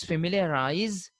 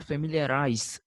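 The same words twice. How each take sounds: First: Familiarize ending in a buzzing Z; z pronunciation. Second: Familiarize ending in a hissed S; s pronunciation. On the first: Teacher shows learners the pronunciation, familiarize with a final Z sound. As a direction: say familiarize with a voiced z at the end. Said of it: "it is familiarize". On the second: Teacher shows the wrong version, familiarize with a final S sound. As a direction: say familiarize with an s at the end, like rice. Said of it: "not familiarize". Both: Shown as a demonstration.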